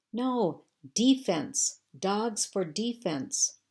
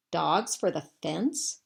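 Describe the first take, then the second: First: "defense" punched on its first syllable, high and loud; emphatic correction. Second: Slow, puzzled echo of a misheard phrase; puzzled question. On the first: Landry correcting the hose man, emphatic stress on "defense". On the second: Hose man mishearing Landry, puzzled. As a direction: repeat it slowly as a baffled question. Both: A narrator's reading.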